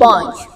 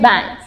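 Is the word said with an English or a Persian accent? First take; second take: Persian; English. First: It is said with a Persian pronunciation. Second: It is said with an English pronunciation. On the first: "ما میگیم" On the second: "اونا میگن"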